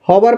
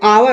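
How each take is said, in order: First: The word begins with an h sound. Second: The word begins with a vowel sound. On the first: The speaker calls it wrong. "हॉवर इसका उच्चारण नहीं होता है" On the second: The speaker calls it right. "एच क्या होता है, silent होता है ना, तो आवर होता है उच्चारण"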